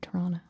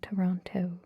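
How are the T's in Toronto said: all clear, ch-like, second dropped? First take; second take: second dropped; all clear. First: The second T sound is left out. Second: Both T sounds are pronounced clearly and carefully. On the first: The speaker sounds like a local. "without the second T" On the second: The speaker is using a careful, soft-spoken voice. "I overpronounce my T's"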